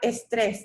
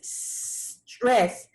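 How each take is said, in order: First: An extra e vowel comes before the s. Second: The word starts directly with the s sound. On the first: The speaker calls it wrong. "The word is not estrés, that's Spanish" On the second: The speaker calls it right. "No E before it"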